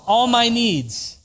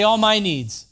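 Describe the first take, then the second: First: Slow, stressing MY, louder and higher; preacher leaning on "my"; slow emphatic repeat. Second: ALL punched, louder and higher; emphatic call and response; congregation repeat. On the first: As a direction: drive each word home slowly. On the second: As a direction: prompt them to say it back. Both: Shown as a demonstration. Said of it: "Say it again".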